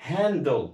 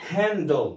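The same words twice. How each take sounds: The two takes are said the same way.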